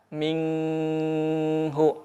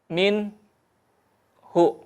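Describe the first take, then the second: First: The n is held with a nasal hum. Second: A short break separates the n from hu. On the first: "tidak menahan ... ikhfa, atau gunnah" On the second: "memutus ... saktah"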